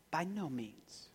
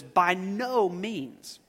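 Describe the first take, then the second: First: Soft, prim little refusal; a gentle, proper grandma saying no; a grandmother softly turning down a cookie request; mild grandmother voice. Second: Slow reading. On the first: Retold or imitated. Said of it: "you hear your grandmother saying". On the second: Shown as a demonstration. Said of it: "My Bible says".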